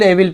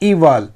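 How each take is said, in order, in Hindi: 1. शब्द 'eh' ध्वनि से शुरू होता है। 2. शब्द 'ee' ध्वनि से शुरू होता है। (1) "बहुत लोग इसे एविल एविल पढ़ते हैं ना, लेकिन वो गलत उच्चारण है" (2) "इसका शुद्ध उच्चारण क्या है? इवल, ई व इवल"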